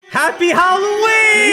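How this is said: It is said in an energetic, cheerful way.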